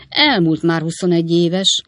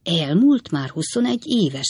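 First: Said in the usual way. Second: Scornful echo of another's words; understated, sneering repetition; contemptuous. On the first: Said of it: "szaladt ki Wardle úr száján megvető hangon". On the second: A narrator's reading. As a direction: throw it back with contempt. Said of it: "megvető hangon".

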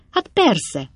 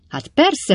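First: Hát persze, a little higher, falling at the end; offhand agreement. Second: High, rising, excited hát persze; eager agreement. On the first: Bob answers Pickwick offhandedly with a falling hát persze. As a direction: toss off the hát persze as a matter of course. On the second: Bob answers Pickwick eagerly with a high rising hát persze. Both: A narrator's reading.

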